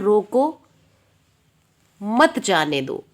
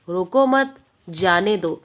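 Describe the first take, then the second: First: There is a pause right after 'roko'. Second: There is a pause right after 'mat'. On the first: Stop the person; do not let them leave. "इस व्यक्ति को रोक लो, मत जाने दो।" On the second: Do not stop the person; let them leave. "रोको मत, comma लगा दिया हमने।"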